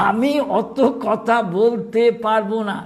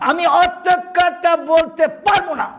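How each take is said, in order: First: Said in the usual way. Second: Much higher, louder, slow irritated outburst; annoyed mother. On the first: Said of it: "এইসব বলছে". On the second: Retold or imitated. Old mother fed up with her son's nagging, irritated and loud. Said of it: "মা হঠাৎ রেগে গেছে, বিরক্ত হয়ে".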